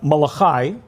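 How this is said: The name has an English pronunciation.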